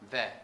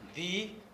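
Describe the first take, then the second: First: The word is said with a reduced vowel. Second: The word is said with a full vowel. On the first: "It is the week" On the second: "The strong"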